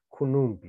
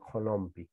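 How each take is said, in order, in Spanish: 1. Las dos primeras vocales son ambas u. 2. La primera vocal es o, la segunda es u. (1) "acá ni uno cambia" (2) "No decimos konumpi"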